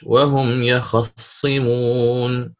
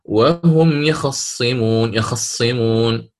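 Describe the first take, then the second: First: يخصمون with a full fatha on the kha, very slow; very slow chanted يخصمون with a full kha vowel; Warsh's full vowel. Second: يخصمون with the fatha on the kha snatched, slow; slow chanted يخصمون with a snatched kha vowel; Qalun's snatched vowel. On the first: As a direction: draw out يخصمون giving the kha a complete fatha. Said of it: "وقرأ الإمام ورش". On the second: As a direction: recite يخصمون slowly, half-voicing the kha's vowel. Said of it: "قالون". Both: Shown as a demonstration.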